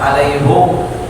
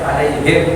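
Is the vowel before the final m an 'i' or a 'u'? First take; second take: u; i. First: The vowel before the final m is u. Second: The vowel before the final m is i. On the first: "bisa dibaca alaihum boleh" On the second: "alaihim boleh"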